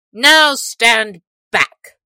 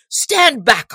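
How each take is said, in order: First: Slow, booming sheriff's command; mighty shout. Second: High, loud sheriff's order; mighty shout. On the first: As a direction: bellow it at the crowd. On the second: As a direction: bark the order at the crowd. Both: A narrator's reading. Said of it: "cried the sheriff in a mighty voice".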